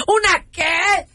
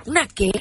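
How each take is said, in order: First: Outraged disbelief. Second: Said in the usual way. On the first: Acted. Wife repeats question, outraged.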